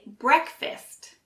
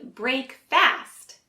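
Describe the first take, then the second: First: The second syllable sounds like 'fist'. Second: The second syllable sounds like 'fast'. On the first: The speaker calls it right. "fist instead of fast" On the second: The speaker calls it wrong. "you may say break fast"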